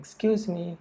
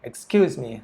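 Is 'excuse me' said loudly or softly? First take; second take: softly; loudly. First: It is said softly and politely. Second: It is said loudly and sharply. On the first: A polite request to get attention. "คนหนึ่งพูดเบาๆ" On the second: A sharp demand for someone to stop. "เฮ้ยหยุดนะนั่นหนังสือผม"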